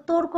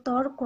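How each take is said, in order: First: তর্ক split with an extra vowel after র, like tor-ko; তর্ক read wrongly as two syllables, tor-ko; wrong pronunciation. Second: তর্ক as one syllable, tork, with র closing the syllable; তর্ক said tork, no vowel after র; correct pronunciation. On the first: Teacher shows students the wrong reading, তর্ক as tor-ko. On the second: Teacher gives students the right reading, তর্ক as tork. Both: Shown as a demonstration. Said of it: "আমরা তর্ক বলি না".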